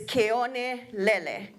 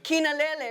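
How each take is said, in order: First: The name is said as Keone Lele. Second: The name is said as Kinalele. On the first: The speaker calls it right. "But it's Keone Lele" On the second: The speaker calls it wrong. "Some people say, the, say it wrong"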